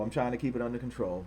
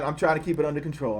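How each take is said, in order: First: Softer and lower, muttered to himself; calm yourself down under your breath; quiet repeat. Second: Said in the usual way. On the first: Real, not acted.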